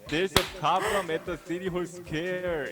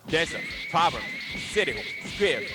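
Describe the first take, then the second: First: It is said flat, like a typical Korean speaker. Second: It is said with strong native-like stress swings.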